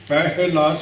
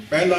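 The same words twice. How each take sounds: First: ਪਹਿਲਾ as peh-he-la with a sounded h; careful, drawn-out ਪਹਿਲਾ with audible h; correct pronunciation. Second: ਪਹਿਲਾ as pel-la, no h; wrong pronunciation. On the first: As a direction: give the h of ਪਹਿਲਾ its own syllable. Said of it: "ਸੋਧ ਉਚਾਰਨ ਹੋਵੇਗਾ". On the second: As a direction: flatten ਪਹਿਲਾ to an open "pe-la". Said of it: "ਨਹੀਂ ਕਹਿਣਾ". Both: Shown as a demonstration.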